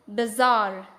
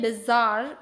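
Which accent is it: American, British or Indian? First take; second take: American; Indian. First: It is said with an American accent. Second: It is said with an Indian accent.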